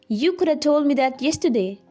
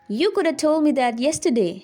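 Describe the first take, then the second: No difference in how they are said.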